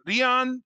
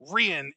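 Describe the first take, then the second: First: The name is said with a Japanese pronunciation. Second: The name is said with an American pronunciation. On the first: The speaker calls it right. "the like perfect correct Japanese pronunciation" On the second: The speaker calls it wrong. "the lazy Americified version"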